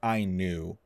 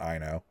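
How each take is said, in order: First: The name ends with an 'oo' sound. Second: The name ends with an 'oh' sound. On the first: The speaker calls it right. "with a U on the end" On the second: The speaker calls it wrong. "not I know"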